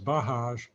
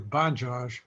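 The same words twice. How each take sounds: First: The name is pronounced in a Spanish-style way. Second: The name is pronounced in a non-Spanish way. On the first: The speaker calls it wrong. "that would be a, a Spanish speak, uh, uh, pronunciation" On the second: The speaker calls it right. "So I think it's probably Bajaj"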